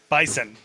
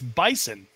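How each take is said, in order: First: The middle consonant is an s sound. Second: The middle consonant is a z sound. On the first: "B-I-S-O-N, like yes"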